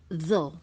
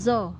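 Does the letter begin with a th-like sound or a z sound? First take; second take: th-like; z. First: It starts with a th-like sound, tongue out. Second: It starts with a z sound. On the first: The speaker calls it right. "lidah kita keluarkan dulu" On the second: The speaker calls it wrong. "selama ini kita bacanya zo ya"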